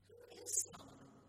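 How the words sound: It is asked in a puzzled, wondering tone. The asker is unsure who this person really is. "I guess you might wonder"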